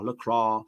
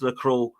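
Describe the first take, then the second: First: It is said with a French accent. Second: It is said with an English accent.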